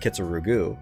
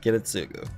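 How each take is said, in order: First: The name sounds like Ki-tsu-ru-gu. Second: The name sounds like Ki-ri-tsu-gu. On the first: The speaker calls it wrong. "and then I said Kitsurugu" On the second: The speaker calls it right. "when it's Kiritsugu. That's a lot better"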